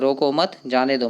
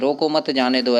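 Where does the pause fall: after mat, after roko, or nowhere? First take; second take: after mat; nowhere. First: There is a pause right after mat. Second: The phrase is said with no pause inside. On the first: The speaker wants the person let go. "वो जाने के लिए बोल रहा है" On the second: The intended meaning is unclear. "देखो यहाँ पे कोई चिन्ह नहीं है"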